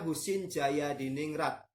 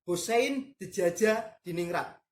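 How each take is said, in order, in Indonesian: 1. Bagian tengahnya diucapkan lancar sebagai 'Jaya'. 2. Bagian tengahnya diucapkan sebagai 'Dejaja', huruf demi huruf. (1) "Kalau dibaca" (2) "Ejaannya gitu"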